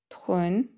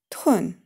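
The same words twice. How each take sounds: First: The pitch rises from mid to high. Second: The pitch falls sharply from high. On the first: "второй тон" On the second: "четвертый тон"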